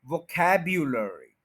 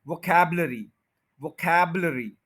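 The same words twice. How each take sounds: First: वोकैब्युलरी slowly, with a full yu; careful वोकैब्युलरी, yu fully voiced; correct pronunciation. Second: वोकैबुलरी said without the yu, as vo-kab-la-ri; वोकैबुलरी with the yu swallowed; wrong pronunciation. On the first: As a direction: model वोकैब्युलरी slowly with a clear yu. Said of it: "इस यू को बोलेंगे". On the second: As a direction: demonstrate वोकैबुलरी the common mistaken way. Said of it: "यानी यू नहीं बोलते". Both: Shown as a demonstration.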